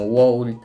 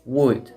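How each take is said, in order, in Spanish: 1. La L se pronuncia claramente. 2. La L no se pronuncia. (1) "no vamos a decir cosas como would" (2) "la manera correcta de pronunciarlo es would ... es como si no existiera ni la O ni la L"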